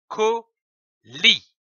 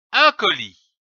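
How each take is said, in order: First: "colis" with a higher, rising tune; blended word demo. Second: Said in the usual way. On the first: Shown as a demonstration. Teacher blending syllables into "colis", rising. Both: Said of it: "L'association de ces deux syllabes donne".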